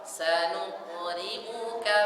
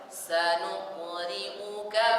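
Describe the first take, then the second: No difference in how they are said.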